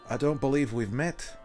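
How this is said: It is said in an attempted put-on accent.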